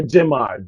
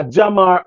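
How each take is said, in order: First: Jamar with an "eh" first syllable, JEH-mar; Jamar, first vowel like the one in "gem"; alternative pronunciation. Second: Jamar with an open "ah" first syllable, JAH-mar; Jamar, first vowel like "ah"; first pronunciation. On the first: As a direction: say Jamar as "jem-AR". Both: Shown as a demonstration. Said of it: "I don't know how you pronounce it".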